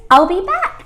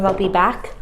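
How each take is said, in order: First: Excited. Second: Said in the usual way. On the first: Acted. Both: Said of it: "I told you if I snap my fingers".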